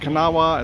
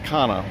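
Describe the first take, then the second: First: The name is said in its longer form. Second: The name is said in a shortened form. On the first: The speaker calls it wrong. "It's not Kanawha" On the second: The speaker calls it right. "it's just Kana River"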